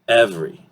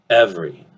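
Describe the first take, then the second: Both takes have the same delivery.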